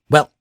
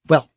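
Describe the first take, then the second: First: The vowel is short and quick. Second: The vowel is short and quick.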